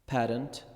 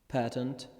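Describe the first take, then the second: Both takes have the same delivery.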